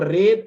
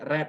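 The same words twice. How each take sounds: First: The vowel is long, like 'reed'. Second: The vowel is short, like 'red'. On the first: It is the present form. "bentuk pertama" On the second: It is the past form. "bentuk kedua"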